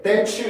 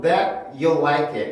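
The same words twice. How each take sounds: First: "that you" run together as "tha-chew"; fuse "that you" with a ch; linked ch sound. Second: "that" stopped short, then a separate "you"; cut-off T. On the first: Teacher showing what not to make here, joined ch. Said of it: "이렇게 만들지 않고". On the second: Teacher showing the cut method against joining, separated words. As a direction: split "that you" with an unreleased T. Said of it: "끊어서 발음을 해주는". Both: Shown as a demonstration.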